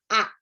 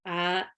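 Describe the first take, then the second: First: The vowels are said with the mouth wide open. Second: The vowels are said with the mouth barely open. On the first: The speaker calls it right. "itu mulutnya dibuka" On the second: The speaker calls it wrong.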